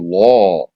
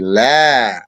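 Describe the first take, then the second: First: The word is said with a heavy, dark vowel. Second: The word is said with a light, thin vowel. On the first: The speaker calls it wrong. "You don't say law" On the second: The speaker calls it right. "you say la"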